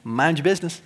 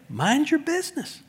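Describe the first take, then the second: First: Said in the usual way. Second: High, soft teasing snark; playful mock snark; snarky. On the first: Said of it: "I'm just gonna start quoting Paul". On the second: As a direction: tease them with it. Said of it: "it comes off as snarky".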